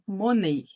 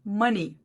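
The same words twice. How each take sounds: First: It is read with Portuguese letter sounds. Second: It is said with English sounds. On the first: The speaker calls it wrong. "vai sair alguma coisa parecida com isso aqui, ó, money... porque no português a gente leria assim. E essa não é a pronúncia correta" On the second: The speaker calls it right. "É assim que você fala a palavra dinheiro, money"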